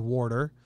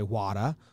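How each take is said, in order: First: It is said in a New Jersey accent. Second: It is said in a Boston accent. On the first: "If you're from New Jersey, you say water with a R" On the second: "If you're in Boston, you say wada with an H"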